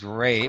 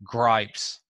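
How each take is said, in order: First: It is said in a Canadian accent. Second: It is said in an Australian accent.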